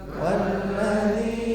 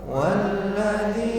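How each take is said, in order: The two takes are said the same way.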